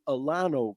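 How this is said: It is said in the California way. "Out here in Cali, people call them"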